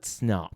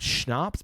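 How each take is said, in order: First: The word begins with a plain 's' sound. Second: The word begins with an 'sh' sound. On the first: This is the Nordic way of saying it. The speaker calls it right. "I believe it's Snaps. Like not Schnapps, but Snops" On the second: This is the German way of saying it. The speaker calls it wrong. "in German, it's Schnaps"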